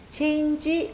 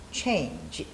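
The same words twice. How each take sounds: First: "change" said the habitual Korean way, drawn out; the common mistaken "change" with a long ending; avoid-this demo of "change"; wrong pronunciation. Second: "change" with a short, clipped final G sound; "change" the native way, end sound kept short; correct pronunciation. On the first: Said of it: "change 이렇게 하지 마시고요". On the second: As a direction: model "change" with a brief G. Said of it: "change 이렇게 발음을 해주셔야 돼요". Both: Shown as a demonstration.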